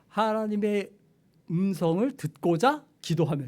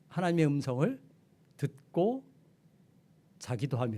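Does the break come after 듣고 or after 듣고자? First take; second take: after 듣고자; after 듣고. First: The break comes after 듣고자. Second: The break comes after 듣고.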